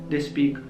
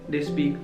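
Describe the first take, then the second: The two takes are said the same way.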